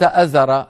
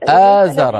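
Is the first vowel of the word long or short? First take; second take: short; long. First: The first vowel is short. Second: The first vowel is long. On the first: The speaker calls it wrong. "ليس أزر" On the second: The speaker calls it right. "الهمزة على السطر وبعدها نعم. ألف آزر"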